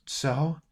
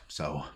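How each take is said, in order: First: Put-on higher, questioning young voice; uneasy boy. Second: Low, soft and final; menacing old man. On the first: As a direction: ask it up high, backing off. Boy steps back, questioning. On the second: Acted. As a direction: drop it low, a quiet threat. Old man answers, drawing dagger.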